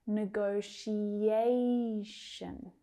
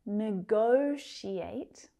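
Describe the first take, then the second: First: "negotiation" very slow, stretching the A before "tion"; stress shifted to A. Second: "negotiate" very slow, GO punched and stretched; stress on second syllable. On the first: Teacher contrasting two words for learners, "negotiation" with stressed A. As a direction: hold ne-go-ti-A-tion on the A, then fall. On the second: Teacher contrasting two words for learners, "negotiate" with stressed GO. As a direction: lean hard on GO in "negotiate", rising at the end. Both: Shown as a demonstration. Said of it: "hear how the stressed syllable changes".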